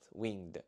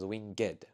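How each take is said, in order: First: The word is said as one syllable. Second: The word is said as two syllables. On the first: This is the everyday form of the word. "what normally is only one syllable" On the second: This form is used for poetic effect. "It adds an extra syllable"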